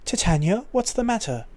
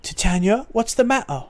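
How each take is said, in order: First: Put-on a light British accent; a little British. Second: Put-on broad Cockney accent, higher; too Cockney. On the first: Concerned mercenary asking his commander, light British accent. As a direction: dial the British accent back to a touch. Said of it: "just a little bit British". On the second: Concerned mercenary asking his commander, Cockney accent. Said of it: "that's too Cockney".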